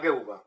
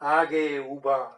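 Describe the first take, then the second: First: The syllables are said briskly without lengthening. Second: The syllables are lengthened and drawn out. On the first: It is said as ordinary prose. "ગદ્યમાં બોલશો" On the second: It is recited as verse. "પદ્યમાં છે ગા ગા ગા ગા લલ લલ ગા"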